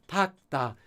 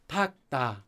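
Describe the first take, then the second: The two takes are said the same way.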